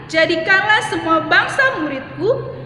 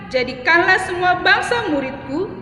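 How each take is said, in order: Both takes have the same delivery.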